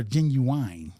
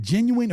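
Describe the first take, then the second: First: "genuine" ending to rhyme with wine; ends in -wine. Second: "genuine" ending in a short -win; ends in -win. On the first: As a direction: say "genuine" as JEN-yoo-wine. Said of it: "some people say genuine". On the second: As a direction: say "genuine" as JEN-yoo-win. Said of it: "is it genuine or genuine?". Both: Shown as a demonstration.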